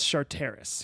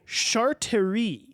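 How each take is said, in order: First: The name ends with an s sound. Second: The name ends without an s sound. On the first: The speaker calls it right. "oh, it's Charteris" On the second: The speaker calls it wrong. "it looks French to me"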